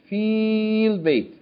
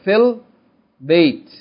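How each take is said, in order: First: The vowel in the first word is long. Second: The vowel in the first word is short. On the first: "Originally, it's feel bait" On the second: "we're going to pronounce short, so we're going to say fill. As though there's no ya there"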